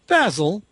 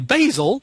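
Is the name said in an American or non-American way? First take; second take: non-American; American. First: The name is said the non-American way. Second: The name is said the American way.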